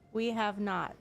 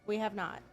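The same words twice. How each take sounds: First: It is said louder. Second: It is said at normal, softer volume.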